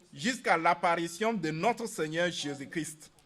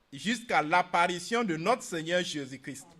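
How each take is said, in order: No difference in how they are said.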